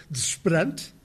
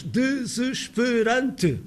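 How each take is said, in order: First: Desesperante said fast as dzʃpɨɾɐnt, unstressed vowels dropped; spontaneous speech. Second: Desesperante said very slowly, every vowel given its own syllable; careful syllables. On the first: Lecturer shows the relaxed everyday pronunciation. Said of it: "a nossa pronúncia espontânea, não vigiada". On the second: Lecturer shows the careful laboratory pronunciation, slowly. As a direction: spell out desesperante in full, lab-style. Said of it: "Veja-se uma palavra como desesperante". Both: Shown as a demonstration.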